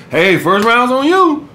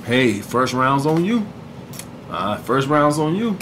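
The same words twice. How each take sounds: First: Higher, slow, silly overdone line; goofy mock-seductive take. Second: Low, soft and slow, smooth; soft seductive line, pitched lower. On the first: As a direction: ham it up like a goof. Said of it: "Goofy ass". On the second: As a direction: say it low and smooth like you're flirting. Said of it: "seductive voice". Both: Shown as a demonstration.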